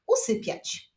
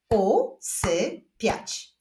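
First: Said in the usual way. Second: Very slow, separated syllables; word split into beats with pauses. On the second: Shown as a demonstration. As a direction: clap it out one syllable at a time. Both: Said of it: "Wyklaszczmy sylaby w tych wyrazach".

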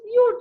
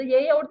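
First: Yiyor said higher and louder, as the correct form; raised spoken form. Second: Yiyor in the wrong form, plain. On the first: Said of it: "yiyor diyoruz". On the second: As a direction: say yiyor as the rejected version. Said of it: "yiyor demiyoruz". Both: Shown as a demonstration.

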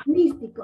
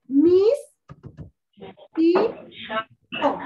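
First: Said in the usual way. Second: "Mis, ti, co" one syllable at a time, long gaps between; "Mis" loud and held, then separate "ti" and "co"; split into syllables. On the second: Shown as a demonstration. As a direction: sound out "Mis... ti... co" with a clear stop after each syllable. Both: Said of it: "Voy a separarlo en sílabas".

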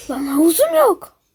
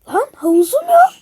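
First: Said in the usual way. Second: Shocked outcry. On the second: Acted. Shocked the pool is gone.

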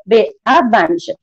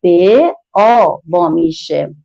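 First: Said in the usual way. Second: Slow blending demo. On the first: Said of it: "با هم بخونیم". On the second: Shown as a demonstration. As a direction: stretch به and آ so the children hear them blend.

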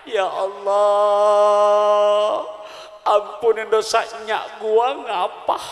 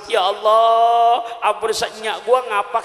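First: Slow, drawn-out tearful prayer in Betawi dialect; mock weeping prayer. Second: Hammed-up answering wail. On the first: Grandmother showing her prayer for her late mother, slow mock-tearful wail. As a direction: stretch every word like an old woman praying through tears. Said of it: "Dicontohin, Pak, sambil nangis". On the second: Preacher jokingly echoes the grandmother's prayer, loud hammed-up shout. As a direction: belt the prayer back as a joking echo. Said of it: "Coba habis ngapa kita sambut".

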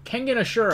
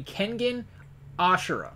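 First: Kengan with a clear n, Ashura as uh-SHOO-ra; high-pitched model of Ashura, stressed on the middle syllable; correct pronunciation. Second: Ashura stressed up front, AH-shura; mistaken pronunciation. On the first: Co-host correcting the host, careful pronunciation of Kengan Ashura. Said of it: "Can you just say it correctly?". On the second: Co-host trying to correct the host, slipping into AH-shura. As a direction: say Ashura with the weight on the first syllable. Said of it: "you have me saying it wrong now". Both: Shown as a demonstration.

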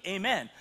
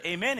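First: Amen with a falling tune, as an answer; congregation's response Amen. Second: Amen with a rising tune, as a call; leader's call Amen. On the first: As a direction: answer back Amen firmly. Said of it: "and you respond back to me". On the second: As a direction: call out Amen so they answer. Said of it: "I'll say to you as the church". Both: Shown as a demonstration.

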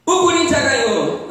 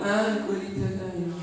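First: Said in the usual way. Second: Much softer, lower, unimpressed reply; mock glum indifference; joyless echo. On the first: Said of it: "Você fala assim pra ele". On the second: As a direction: repeat the news with no joy at all. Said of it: "Ele não alegra-se com nada".

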